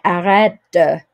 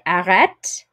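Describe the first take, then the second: First: A short vowel is sounded after the final t. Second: It ends on the t with no final vowel. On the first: The command is said with strong emphasis. "but if you're emphasizing it, you might say" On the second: It is an ordinary, neutral command. "normally you don't say that E at the end"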